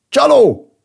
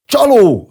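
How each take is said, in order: First: High, loud accusing shout; sudden outcry. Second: Loud, high massed-crowd cry; crowd's roar. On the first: Villager waking from surprise to accuse, crying out loudly. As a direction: burst out with a startled, falling yell. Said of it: "harsant fel az egyik falubeli". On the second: Village people turning on the cheat, roaring loudly. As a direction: roar the accusation like a whole village. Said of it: "zúgta a falu népe". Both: A narrator's reading.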